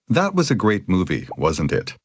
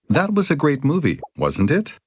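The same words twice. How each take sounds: First: The voice falls at the end. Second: The voice rises at the end.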